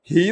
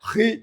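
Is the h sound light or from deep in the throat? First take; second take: light; throat. First: The h is light, not from the throat. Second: The h comes from deep in the throat. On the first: The speaker calls it wrong. "ഹി എന്നല്ല, അതല്ല" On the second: The speaker calls it right. "ഹൽക്കിൽ നിന്ന് പറഞ്ഞോ"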